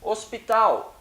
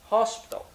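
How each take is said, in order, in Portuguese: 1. Ela é pronunciada com sons portugueses. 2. Ela é pronunciada com sons ingleses. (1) "em português" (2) "em inglês"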